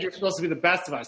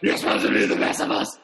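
First: It is said in a normal voice. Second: It is said in a gruff Batman voice.

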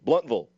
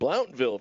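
First: It starts 'blunt' and ends with 'vull'. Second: It starts 'blount' and ends with 'ville'. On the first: The speaker calls it right. "it's not Ville, it's Vull, and Blount is not Blount, it's Blunt" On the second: The speaker calls it wrong. "I was pronouncing it Blountville for the longest time"

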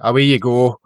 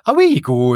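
First: The phrase is said in a dismissive, brushing-off tone. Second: The phrase is said in an amazed, impressed tone. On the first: The speaker is telling someone to get lost. "as if, you know, beat at you" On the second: The speaker finds something amazing. "as if, you know, that's amazing"

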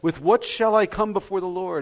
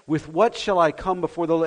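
First: It is read in a mocking, sarcastic tone. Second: It is read in a plain, neutral tone.

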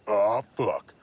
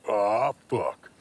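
No difference in how they are said.

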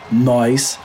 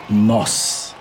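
First: It is said in a colloquial street pronunciation. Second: It is said in the standard pronunciation. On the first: This is how people speak in the streets. The speaker calls it wrong. "nós is our wrong Portuguese" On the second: This is the correct form of the language. The speaker calls it right. "The right way to say nós is nós"

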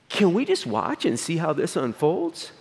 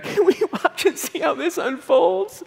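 First: It sounds like an ordinary neutral question. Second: It sounds begging and pleading, like a beggar.

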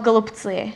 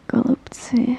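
First: It is said in a plain, everyday voice. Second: It is said in a low, seductive voice.

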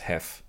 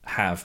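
First: The word ends in a voiceless consonant. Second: The word ends in a voiced consonant.

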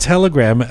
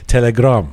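First: Telegram is pronounced the usual English way. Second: Telegram is pronounced the Farsi way.

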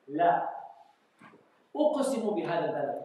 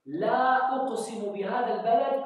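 First: A clear pause follows the first word. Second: The phrase runs on without a pause. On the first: The first word answers what others said; then an oath follows. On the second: The first word strengthens the oath.

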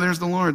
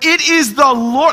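First: It is said casually, without excitement. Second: It is said excitedly, as an exclamation.

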